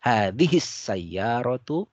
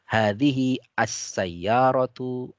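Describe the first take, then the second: First: The initial 'a' of the article is dropped. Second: The initial 'a' of the article is pronounced.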